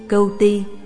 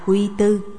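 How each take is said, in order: First: The name is said as 'Cưu Ti'. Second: The name is said as 'Quy Tư'. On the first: The speaker calls it right. "vần chính nữa là Cưu Ti" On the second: The speaker calls it wrong. "người ta đọc trật vần là Quy Tư"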